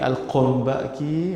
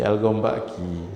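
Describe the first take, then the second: First: The name starts with a q sound. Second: The name starts with a hard g sound.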